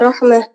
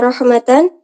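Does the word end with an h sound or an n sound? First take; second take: h sound; n sound. First: The word ends with a soft h sound. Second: The word ends with a full -tan syllable. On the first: The reading stops on this word. "ketika waqaf maka dibaca rahmah" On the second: The reading continues into the next word. "Ketika wasal maka dibaca rahmatan"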